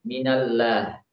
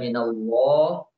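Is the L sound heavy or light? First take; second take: light; heavy. First: The L is pronounced light and thin. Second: The L is pronounced heavy and thick. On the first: The speaker calls it wrong. "ketika seharusnya dibaca tebal dia membacanya dengan tipis, maka ini termasuk suatu kesalahan" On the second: The speaker calls it right. "harusnya dibaca minallah"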